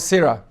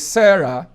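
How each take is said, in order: First: The first vowel is not the 'air' diphthong. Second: The first vowel is the 'air' diphthong. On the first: The speaker calls it wrong. "is not Sarah" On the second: The speaker calls it right. "That word is Sarah"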